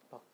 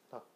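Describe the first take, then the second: First: The first consonant is a light, soft tap. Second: The first consonant is a light, soft tap.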